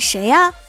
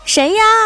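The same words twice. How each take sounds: First: It is said at a normal, quiet volume. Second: It is said loudly, with an angry raised voice.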